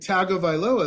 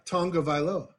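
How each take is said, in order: First: The name is said without an n sound. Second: The name is said with an n sound. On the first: The speaker calls it wrong. "is what I want to say" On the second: The speaker calls it right. "but it's Taulia Tagovailoa"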